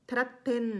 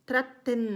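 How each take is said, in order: First: The final syllable 'ten' is clearly pronounced. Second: The same.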